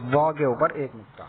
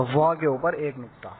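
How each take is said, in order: Both takes have the same delivery.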